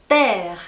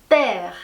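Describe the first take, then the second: The two takes are said the same way.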